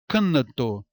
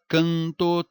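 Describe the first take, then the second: First: The N is a full consonant with an extra vowel. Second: The vowel is nasalized with no consonant or glide. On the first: The speaker calls it wrong. "Não fala isso" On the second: The speaker calls it right. "falamos o quê?"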